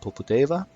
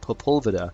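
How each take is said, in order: First: The name is said ending in 'deva'. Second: The name is said ending in 'veda'. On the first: The speaker calls it right. "it's clearly the other way around" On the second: The speaker calls it wrong. "I was mispronouncing this name horribly"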